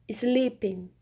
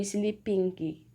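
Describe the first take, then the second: First: The word ends without any G sound. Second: A hard G sound is heard at the end. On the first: The speaker calls it right. "a gente vai suprimir esse som" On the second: The speaker calls it wrong. "ou sleeping"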